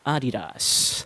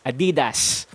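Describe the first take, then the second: First: The first A is long, with no stress. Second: The first A is short, with normal stress. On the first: The speaker calls it right. "elongate the A sound at the beginning a little more and flow through the rest of the word without any stresses at all" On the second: The speaker calls it wrong. "it sounds oddly like a very popular Filipino street food"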